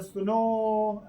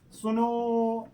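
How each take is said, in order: First: Drawn-out call. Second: Said in the usual way. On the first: Shown as a demonstration. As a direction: stretch the vowel long and slow. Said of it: "कहते हैं, "सुनो", ऐसे". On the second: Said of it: "ऐसे करके बुलाते नहीं".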